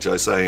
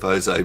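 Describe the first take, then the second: First: It begins with an English J sound. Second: It begins with a throaty H-like sound. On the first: "like Jose" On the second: "instead of Jose"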